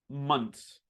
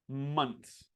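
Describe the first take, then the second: Both takes have the same delivery.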